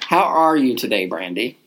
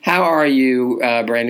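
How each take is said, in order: First: The greeting sounds warm and convincing. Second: The greeting sounds flat and offhand.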